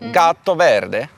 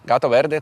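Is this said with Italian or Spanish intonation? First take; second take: Italian; Spanish. First: It is said with an Italian intonation. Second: It is said with a Spanish intonation. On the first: "Так само, але з таким інтонацією, типу" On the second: "це іспанською"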